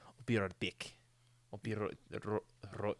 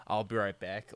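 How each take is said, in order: First: Trying a rolled R in right, stumbling; South African accent. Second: Said in the usual way. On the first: Retold or imitated. Retelling Matt Damon's accent struggle, mock South African. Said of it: "like a South African would say". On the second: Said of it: "whereas we'll say".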